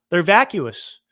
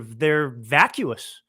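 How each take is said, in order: First: Louder repeat. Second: Slow drawn-out vacuous. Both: Real, not acted.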